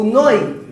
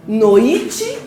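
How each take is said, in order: First: "noi" loud as one falling syllable, stress on the o; correct diphthong. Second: "noite" drawn out with the stress pushed onto a rising i; wrong stress. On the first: Teacher offering the right option, correct diphthong. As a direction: hit the o in "noi" and glide into i. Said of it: "Não é noite? Noi". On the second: Teacher testing the class with a false option, wrong stress. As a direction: stretch "noite" as no-I-te, lifting the i. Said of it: "É só pronunciar, não gritar". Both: Shown as a demonstration.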